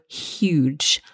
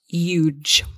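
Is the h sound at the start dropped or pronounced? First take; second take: pronounced; dropped. First: The word starts with a clear h sound. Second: The word starts without any h sound. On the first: The speaker calls it right. "we must pronounce the H" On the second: The speaker calls it wrong. "not huge"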